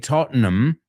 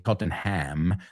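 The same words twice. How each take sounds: First: The name is pronounced the way locals say it. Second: The name is pronounced the way outsiders say it. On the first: The speaker calls it right. "they say Tottenham" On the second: The speaker calls it wrong. "They don't say Tottenham"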